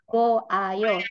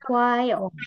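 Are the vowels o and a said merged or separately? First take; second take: separately; merged. First: The vowels o and a are said separately. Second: The vowels merge into one short syllable. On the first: The speaker calls it wrong. "tidak secara gamblang disebut go ayo" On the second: The speaker calls it right. "tapi wayo, singkat langsung"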